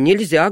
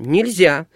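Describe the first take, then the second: First: It is said in a milder, calmer tone. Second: It is said in a sterner, stricter tone. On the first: A first, gentle prohibition. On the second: The prohibition is repeated more firmly.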